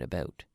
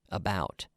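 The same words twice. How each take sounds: First: The vowel is said the Canadian way. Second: The vowel is said the American way. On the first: "I say out and about" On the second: "Americans would say out, about"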